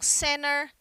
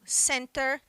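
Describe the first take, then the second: First: The T after the N almost disappears. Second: The T after the N is clearly pronounced. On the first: "no inglês americano, esse T, ele quase desaparece" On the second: "no inglês britânico o T é pronunciado"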